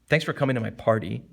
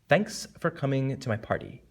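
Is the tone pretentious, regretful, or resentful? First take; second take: resentful; pretentious. First: It is said in a resentful tone. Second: It is said in a pretentious tone. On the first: "you could sound something resentful. ... That's resentful" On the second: "Or pretentious"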